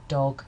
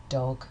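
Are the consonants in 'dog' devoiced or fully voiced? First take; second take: devoiced; devoiced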